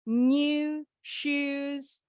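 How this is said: New is said with a y glide, like nyoo. "Kalau orang Inggris bunyinya ada huruf Y-nya"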